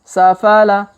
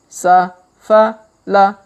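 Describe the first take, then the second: First: The syllables are read quickly together. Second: The syllables are read slowly with gaps. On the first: "Kalau dipercepat" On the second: "Kita baca pelan-pelan"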